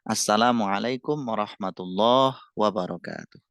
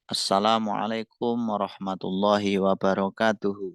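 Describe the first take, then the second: First: The final word ends cut off on a consonant. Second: The final word ends with a full vowel. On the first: "dibaca wakof. Wakof itu artinya disukun akhirnya" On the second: "dengan harokat yang sempurna"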